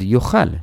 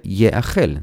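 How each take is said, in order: First: The word is read from its bare consonants. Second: The word is read following its vowel points. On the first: A person shall eat in one house. "אם לא היה לנו ניקוד... היינו חושבים שכתוב פה" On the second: The thing shall be eaten in one house. "כיוון שיש ניקוד, אנחנו יודעים שצריך לקרוא את זה יאכל"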